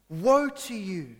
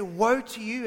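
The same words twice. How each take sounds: First: Slow, louder, near-shouted warning; almost shouting. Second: Said in the usual way. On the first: Retold or imitated. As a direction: lean in and nearly shout it. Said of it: "he almost shouts". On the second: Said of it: "He could have started off and say".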